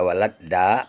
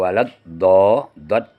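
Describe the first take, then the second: First: The d sound is light and plain. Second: The d sound is heavy and emphatic.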